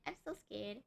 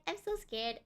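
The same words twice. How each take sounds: First: Dropping to a soft murmur; quiet scared murmur. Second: Said in the usual way. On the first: Real, not acted. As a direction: trail off softly, scared.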